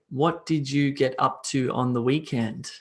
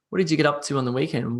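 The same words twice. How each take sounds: First: Each word is pronounced clearly and separately. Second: The sounds merge together into connected speech. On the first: The speaker calls it wrong. "I would never say" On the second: The speaker calls it right. "if I'm speaking to my friends, I would say"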